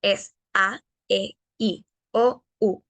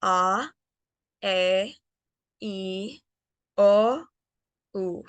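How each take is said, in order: First: "A, E, I, O, U" crisp and dry; dry Spanish vowels. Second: "A, E, I, O, U" soft with breath; soft airy English vowels. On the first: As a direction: tap each Spanish vowel short. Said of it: "el sonido es más seco". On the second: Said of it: "más suave y con más aire". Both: Shown as a demonstration.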